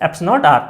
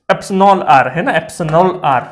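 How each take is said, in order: First: Clipped to "एप्स नॉट R", the quick classroom shorthand; lazy shortcut "एप्स नॉट R"; short slang form. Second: Careful full "एप्सिलॉन R"; full proper pronunciation. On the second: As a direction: spell out "एप्सिलॉन R" in full, every syllable, firm and a bit louder. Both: Shown as a demonstration. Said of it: "तो इसका actual pronunciation".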